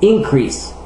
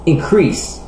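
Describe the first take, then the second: First: The stress is on the first syllable. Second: The stress is on the second syllable. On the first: It is used as a noun or adjective. "Avec les noms et les adjectifs de deux syllabes, l'accent est normalement sur la première syllabe" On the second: It is used as a verb. "Avec la plupart des verbes de deux syllabes, l'accent est normalement sur la dernière syllabe"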